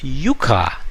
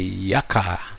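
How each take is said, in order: First: It is pronounced the Spanish way. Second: It is pronounced the English way. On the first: "it is called yucca in Spanish" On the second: "most of the Americans and the Europeans seem to say yucca"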